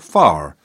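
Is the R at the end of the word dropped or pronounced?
pronounced. The final R is pronounced.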